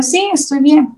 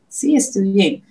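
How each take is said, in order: First: Fake fine. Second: Said in the usual way. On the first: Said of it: "Y yo". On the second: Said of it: "La típica palabra".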